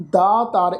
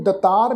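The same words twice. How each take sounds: First: ਦਾਤਾਰ with long aa in both syllables; correct long vowel. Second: ਦਤਾਰ with a short first vowel; wrong short vowel. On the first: Teacher showing congregation the right reading, long first vowel in ਦਾਤਾਰ. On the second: Teacher warning congregation of a misreading, short first vowel in ਦਤਾਰ. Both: Shown as a demonstration. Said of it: "ਇਹਨੂੰ ਦਤਾਰ ਨਹੀਂ ਬਣਨਾ".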